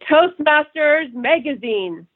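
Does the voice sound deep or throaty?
deep. The voice is lower, deeper and more resonant. The speaker calls it right. "It's deeper. It's more resonant"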